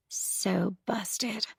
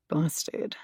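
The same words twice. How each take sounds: First: Unvoiced whisper under the breath. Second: Said in the usual way. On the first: A narrator's reading. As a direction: breathe it secretly. Narrator repeats under breath.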